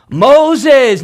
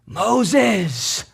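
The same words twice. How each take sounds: First: Second call, louder and more urgent; a firm summons, you mean business. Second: A soft call from far off; faint faraway calling of Moses; distant call. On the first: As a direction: call out the name sharply. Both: Retold or imitated. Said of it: "he hears this call".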